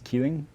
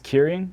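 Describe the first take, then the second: First: It is said with Chinese sounds, like chee-ling. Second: It is said with Japanese sounds, like kee-reen. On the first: "in Chinese it's Keeling" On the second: "in Japanese it's Kirin"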